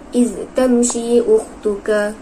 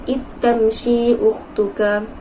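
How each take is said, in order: First: The z sound of iz is kept separate. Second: The z sound of iz merges into t.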